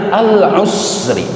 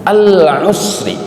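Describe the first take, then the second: No difference in how they are said.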